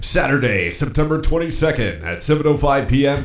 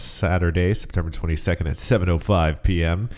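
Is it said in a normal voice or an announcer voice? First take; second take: announcer; normal. First: It is said in a hockey announcer voice. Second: It is said in his normal speaking voice.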